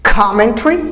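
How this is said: It is said with a British accent. "British commentary"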